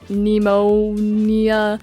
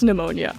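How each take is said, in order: First: The name begins with the sounds of 'Nemo'. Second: The name begins with the sound 'new'. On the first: The name is built from Nemo plus an ending. "maybe you're supposed to pronounce it like Nemo-nia" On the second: The name sounds like the lung illness. "they had to know it's pneumonia"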